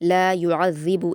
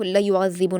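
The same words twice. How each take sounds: First: The vowel in the first word is long. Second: The vowel in the first word is short. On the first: The speaker calls it right. "लाम पर अलिफ मद्दा है" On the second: The speaker calls it wrong. "इसको ला युअज़्ज़िबु नहीं पढ़ना"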